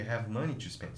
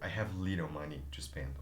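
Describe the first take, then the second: First: The voice sounds happy and upbeat. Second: The voice sounds down and not positive.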